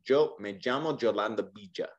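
The y and ll sounds are harsher, like J. This is how it sounds in Spain. "a little bit harsher, almost like a J"

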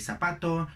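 The z is pronounced like an s. "ellos no dicen ... ni zapato"

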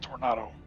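It is said with a British pronunciation. "I think the British pronounce it tornado"

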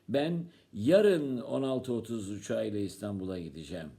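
The stress falls on the word "yarın". It tells which day. "Sen ne gün gideceksin?"

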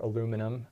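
The word is said the American way.

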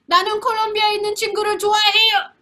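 It is said in an angry tone.

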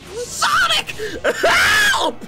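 It is screamed loudly, like Amy.

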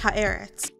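The name is said with a Canadian English accent. The speaker calls it wrong. "I was pronouncing it with my Canadian accent"

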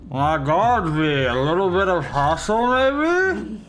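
It sounds mock-respectful and deferential.

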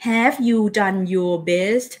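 The voice falls at the end like a statement. It sounds like telling someone something. The speaker calls it wrong. "อันนี้มันเหมือนแบบมาบอกกัน"

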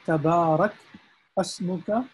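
The two words are split apart. The speaker calls it wrong. "instead of breaking it down like I did"

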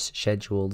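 It is said in a British accent. "English UK"

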